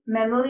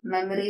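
First: "മെമ്മറി" with a full round O, mem-O-ree; common mispronunciation. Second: "മെമ്മറി" with a weak middle vowel; correct pronunciation. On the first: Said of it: "എന്ന് പറയരുത്". ("മെമ്മറി" തെറ്റായി "മെമോറി" എന്ന്) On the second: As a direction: say "മെമ്മറി" as MEM-uh-ree. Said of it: "ഇത് correct ആയിട്ട് എങ്ങനെയാണ്". ("മെമ്മറി" ശരിയായി, നടുസ്വരം ചുരുക്കി) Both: Shown as a demonstration.

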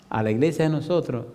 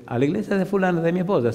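First: Said in the usual way. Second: Higher-pitched, balking echo of the invitation; incredulous echo question. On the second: Retold or imitated. Husband balking at his wife's church, incredulous. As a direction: throw the church back as a disbelieving question.

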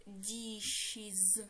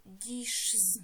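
First: "dishes" in two drawn-out syllables, di-shiz; plural with iz ending. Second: «дішз» with z jammed straight onto sh; hard-to-say wrong plural. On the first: Teacher showing the correct plural to pupils, clear iz ending. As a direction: say "dishes" with a vowel between sh and final z. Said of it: "Тому ми додаємо закінчення". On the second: Teacher showing why a bare s is awkward, crammed sh-z ending. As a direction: say «дішз» as one syllable, no vowel before the z. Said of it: "Нам буде важко це вимовити". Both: Shown as a demonstration.

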